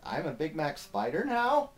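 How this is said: It is read as a question, rising.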